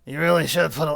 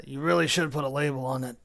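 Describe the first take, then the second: First: Loud growling werewolf yell. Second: Hollered. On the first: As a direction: bellow it like a werewolf. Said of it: "Just pretend like it's a werewolf voice". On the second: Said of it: "That was hollered". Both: Acted.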